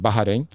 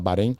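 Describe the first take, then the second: First: It is said with the local pronunciation. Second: It is said with the Brazilian pronunciation. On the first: "na pronúncia local lá" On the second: "aqui no Brasil o pessoal fala Bahrein"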